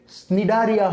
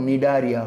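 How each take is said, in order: First: ସ୍ନିଡାରିଆ with an S sound before the N; wrong pronunciation. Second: ନିଡାରିଆ starting straight on the N; correct pronunciation. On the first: Teacher warns it is never this, ସ୍ନିଡାରିଆ with sounded S. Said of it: "ହବନି କେବେ". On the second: Teacher gives the right form, ନିଡାରିଆ with silent C. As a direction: drop the C sound, say ନିଡାରିଆ. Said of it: "ତା କ'ଣ ହବ". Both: Shown as a demonstration.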